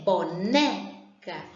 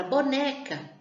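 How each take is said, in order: First: "boneca" drawn out slowly, né hit hardest; stress on NÉ. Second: Said in the usual way. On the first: Shown as a demonstration. Teacher showing pupils the stressed syllable, "boneca" with forceful né. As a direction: stretch "boneca" by syllables and punch the né. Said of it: "a sílaba que sai com mais intensidade é o né".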